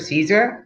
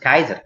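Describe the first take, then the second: First: The word begins with an S sound. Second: The word begins with a K sound. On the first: This is the usual English way. "we pronounce Caesar Caesar" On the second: This is the original Latin way. "in Latin, Caesar is actually pronounced Kaiser"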